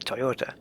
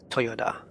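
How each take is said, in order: First: The pitch stays level, in an English way. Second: The pitch goes down, in a Japanese way. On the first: "we would just say Toyota" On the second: "in Japanese it has to go down"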